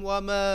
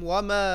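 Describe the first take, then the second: The two takes are said the same way.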